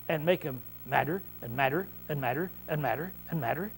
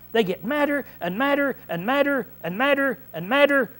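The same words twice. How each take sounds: First: Low, soft, measured "madder" each time; subdued repetition. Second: High, rhythmic hammering on each "madder"; emphatic repetition. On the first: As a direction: drop the voice and repeat it evenly. Repeats the list, subdued. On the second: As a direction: punch every "madder" with raised pitch. Hammers home mounting anger. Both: Real, not acted.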